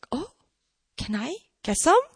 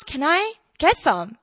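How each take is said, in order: First: Hesitant, tentatively curious ask; interested. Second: Slow, mildly intrigued request; interested. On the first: Skeptical woman now asking Jesus for water, interested. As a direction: pause after the oh, ask with a rise. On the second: Woman asking Jesus for living water, interested. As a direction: draw the question out, let it fall. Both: Retold or imitated. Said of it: "she shows interest".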